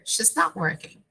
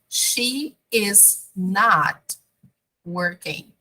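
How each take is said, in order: First: The word 'is' is shortened onto 'she'. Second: Every word is said in full, uncontracted. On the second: "the long form"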